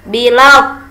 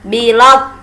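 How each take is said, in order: No difference in how they are said.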